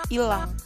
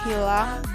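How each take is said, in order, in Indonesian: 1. Kata itu tidak diawali dengan bunyi h. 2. Kata itu diawali dengan bunyi h. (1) "bukan ilang" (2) "Seharusnya hilang"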